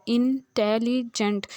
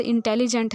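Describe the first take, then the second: First: intelligent drawn out slowly so its three syllables are heard; in-ten-li-gent, slowly broken into syllables. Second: Said in the usual way. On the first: Shown as a demonstration. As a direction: stretch intelligent out for the class. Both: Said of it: "तीन उसके आ रहे हैं ना syllabus".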